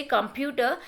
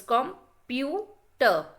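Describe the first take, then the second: First: Said in the usual way. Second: "computer" very slowly, three separate beats; syllable by syllable. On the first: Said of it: "We say computer". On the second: Shown as a demonstration. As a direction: break "computer" into three with long gaps. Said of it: "divided into three different syllables".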